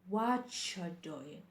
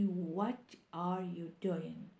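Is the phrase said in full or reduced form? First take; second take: reduced; full. First: The words are reduced and run together. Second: Every word is said fully and separately. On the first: The speaker calls it right. "say or pronounce the sentence what you doing" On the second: The speaker calls it wrong. "Don't say what are you doing"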